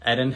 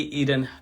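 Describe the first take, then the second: First: "Eden" with a short E, as ED-un; self-corrected pronunciation. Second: "Eden" with a long EE first vowel; mistaken pronunciation. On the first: Host fixing the guest's name mid-sentence, "Eden" as ED-un. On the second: Host slipping on the guest's name, "Eden" as EE-dun. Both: Real, not acted. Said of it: "we're gonna get that right".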